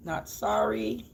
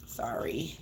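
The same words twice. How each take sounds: First: Slow, deliberate "Not sorry." with weight on "sorry"; defiant not sorry. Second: Soft, rising fake "Sorry." barely voiced; a "Sorry." you don't mean, very much softer; hushed insincere "Sorry." with a lift at the end; mock apology. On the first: Acted. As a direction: take the apology back, slowly and flatly.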